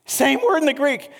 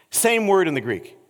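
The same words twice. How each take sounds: First: "Same word in the Greek" said much higher, with "word" leaned on; emphatic repeat. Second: Said in the usual way. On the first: Real, not acted. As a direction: drive home "word" with a lifted pitch.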